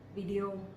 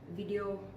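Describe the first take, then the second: Both takes have the same delivery.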